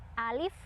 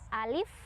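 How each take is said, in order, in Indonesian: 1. Vokal pertama dibaca pendek. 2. Vokal pertama dibaca pendek.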